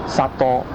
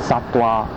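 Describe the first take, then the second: The two takes are said the same way.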